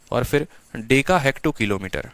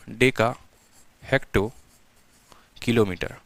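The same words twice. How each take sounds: First: Said in the usual way. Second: Deka, hecto, kilometre spoken one at a time with a pause after each; word by word with pauses. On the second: Shown as a demonstration. Teacher to students, spelling out the unit series, each word apart.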